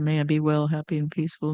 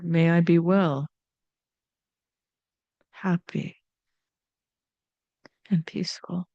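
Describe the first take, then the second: First: It is said quickly, like a rote mantra. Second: It is said slowly with small pauses.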